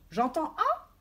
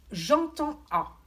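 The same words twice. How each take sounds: First: «j'entends A» as a question, rising on «A»; asking tune. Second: «j'entends A» said slowly, lifted high on «j'entends»; slow stressed phrase. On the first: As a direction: ask yourself «j'entends A» with a high rise. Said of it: "Je me pose la question". («j'entends A» en question, montée sur «A») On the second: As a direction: lay out «j'entends A» slowly and clearly. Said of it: "Classer en fonction d'un critère, ça veut dire". («j'entends A» détaché, lent et appuyé) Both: Shown as a demonstration.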